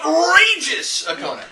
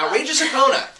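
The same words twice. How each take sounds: First: It is said in a booming Aquaman impression. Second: It is said in his normal voice.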